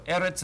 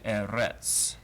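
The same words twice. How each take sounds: First: The stress is on the first syllable. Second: The stress is on the last syllable. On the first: The speaker calls it right. "the emphasis goes on the first sigil" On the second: The speaker calls it wrong. "as opposed to"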